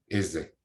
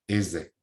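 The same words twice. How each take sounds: No difference in how they are said.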